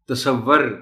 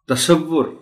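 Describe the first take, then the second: First: The last syllable has an 'a' vowel. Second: The last syllable has a 'u' vowel. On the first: The speaker calls it wrong. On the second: The speaker calls it right.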